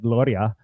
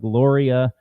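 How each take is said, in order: First: It is said in a strong Spanish accent. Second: It is said in a plain English accent.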